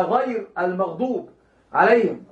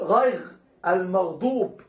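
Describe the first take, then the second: First: "غير المغضوب عليهم" slowly, with a clear rolled ر in "غير"; نطق الراء صحيحة; correct reading. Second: "غيغ المغضوب" with every ر turned into a throaty غ; نطق الراء غينا في غير. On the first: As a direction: fix it: "غير" with a proper ر. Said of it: "لا". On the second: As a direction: mispronounce "غيغ", gargled غ in place of ر. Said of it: "كأن يقول". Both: Shown as a demonstration.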